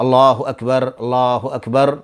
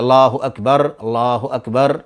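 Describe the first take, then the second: First: Each phrase is said slowly with pauses between. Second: The same.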